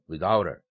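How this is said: The stress falls on the preposition. The speaker calls it right. "이런 식으로 발음하는 습관을 들이기 바랍니다"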